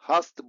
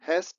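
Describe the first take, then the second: First: An 'ah' vowel with a soft dental t. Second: An 'ae' vowel with a hard retroflex t. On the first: The speaker calls it right. "हास्त बोलेंगे। जैसे हिंदी में हम त तोता वाला यूज करते हैं" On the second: The speaker calls it wrong. "इसको हैस्ट या हास्ट नहीं बोलेंगे"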